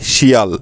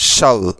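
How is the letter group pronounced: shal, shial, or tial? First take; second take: shial; shal. First: It is pronounced as shial, with two vowels. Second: It is pronounced as shal, with one vowel. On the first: The speaker calls it wrong. "কেউ বা আবার উচ্চারণ করে শিয়াল" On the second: The speaker calls it right. "এই অংশটার সঠিক উচ্চারণ হবে শাল"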